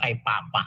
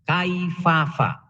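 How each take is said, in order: First: The second syllable starts with a p sound. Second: The second syllable starts with an f sound. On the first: The speaker calls it wrong. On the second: The speaker calls it right.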